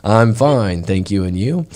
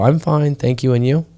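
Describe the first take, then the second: First: Slower imitation of textbook English; slower rote reply. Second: Lightly imitated textbook reply; rote classroom English. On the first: Imitating Thai pupils' stock reply, slowly recited. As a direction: recite the school phrase more deliberately. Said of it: "we gotta speak that slower than that". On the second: Imitating Thai pupils' stock greeting reply, lightly recited. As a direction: recite it like a learned school phrase. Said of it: "In Thailand, they like to go".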